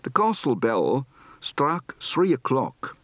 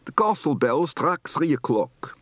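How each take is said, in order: First: Moderate Dutch accent, slow and careful; measured Dutch-accented English; medium Dutch accent. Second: Thick Dutch accent, slowed down; strong Dutch accent on an English sentence; heavy Dutch accent. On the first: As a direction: give "castle" a Dutch open a, medium Dutch accent. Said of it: "Medium accent". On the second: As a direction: lean hard into Dutch vowels and "sree" for three. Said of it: "Heavy accent". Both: Shown as a demonstration.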